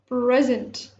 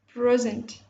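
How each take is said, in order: First: The stress is on the first syllable. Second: The same.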